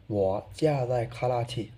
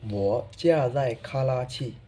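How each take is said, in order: Both takes have the same delivery.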